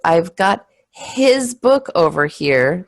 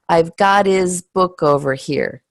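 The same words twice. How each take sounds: First: The H at the start of 'his' is pronounced. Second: The H at the start of 'his' is dropped. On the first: The speaker calls it wrong. "that doesn't sound very natural" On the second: The speaker calls it right. "Did you hear the H? Nope"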